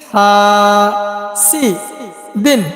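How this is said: The syllables are said apart with breaks. "ভাঙ্গা ভাঙ্গা উচ্চারণ"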